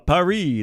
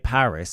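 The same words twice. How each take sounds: First: Paris is said with a French accent. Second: Paris is said with an English accent. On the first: "like I'm a French man" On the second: "I guess I say Paris"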